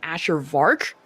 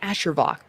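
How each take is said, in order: First: The second part has an audible R sound. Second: The second part has no R sound. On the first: The speaker calls it wrong. "people either pronounce my name Asher Vark for some reason" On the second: The speaker calls it right. "It's Asher Vok"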